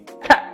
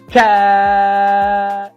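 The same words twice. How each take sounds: First: The shouted word is cut short. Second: The shouted word is drawn out. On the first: "Shout short would be" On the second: "Shout long would be"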